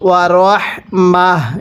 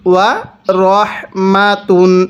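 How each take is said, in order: First: The word ends with a soft h sound. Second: The word ends with a t sound and -un. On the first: The reader stops at this word. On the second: The reading continues without stopping.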